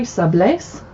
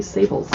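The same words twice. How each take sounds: First: "sablés" said the French way, sah-BLAY. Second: "sables" said like English SAY-bulls; "sables" with an English ending, no French accent; anglicized sables. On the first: Reading a cookbook aloud, "sablés" said correctly in French. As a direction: give "sablés" its French ending, stress on BLAY. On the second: Admitting to viewers the wrong "sables" she always says. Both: Shown as a demonstration. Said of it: "I always want to say sables".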